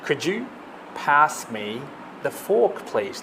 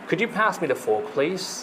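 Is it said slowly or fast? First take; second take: slowly; fast. First: It is said slowly, word by word. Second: It is said quickly, at full speed.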